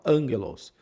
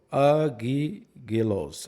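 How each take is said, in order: First: The first consonant after the a is n. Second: The first consonant after the a is g. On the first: The speaker calls it right. "o primeiro ele tem som de N" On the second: The speaker calls it wrong. "não agigelo, agigelos"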